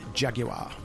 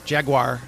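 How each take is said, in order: First: The word has a British pronunciation. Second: The word has an American pronunciation. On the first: "it was emphasized Jaguar" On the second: "as Americans pronounce it"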